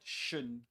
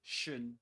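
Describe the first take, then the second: The two takes are said the same way.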